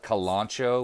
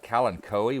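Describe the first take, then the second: First: KALANCHOE said as kuh-LAHN-cho; usual pronunciation. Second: KALANCHOE said as KAL-an-KOH-ee; hard k in the middle of KALANCHOE, ending "koh-ee"; weird alternative pronunciation. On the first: Gardener giving viewers the name she always uses, usual pronunciation. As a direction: stress the middle of KALANCHOE, "lahn", ending in "cho". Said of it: "depending on how you pronounce it, some people call it". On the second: Gardener quoting how some YouTube people say it, weird pronunciation. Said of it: "which seems really weird". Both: Shown as a demonstration.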